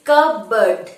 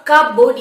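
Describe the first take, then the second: First: Cupboard as kuh-burd, p silent; correct pronunciation. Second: Cupboard as cup-board, p sounded; wrong pronunciation. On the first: Teacher giving the right form, correct pronunciation. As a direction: say cupboard slowly with no p. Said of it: "it is cupboard". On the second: Teacher rejecting the spelling-based form, wrong pronunciation. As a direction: hit cupboard loudly as two spelt words, cup and board. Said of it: "it is not cupboard". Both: Shown as a demonstration.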